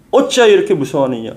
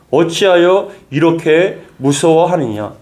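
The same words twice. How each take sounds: First: Said in the usual way. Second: Slow emphatic rebuke. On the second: Acted. Preacher repeats Jesus' rebuke.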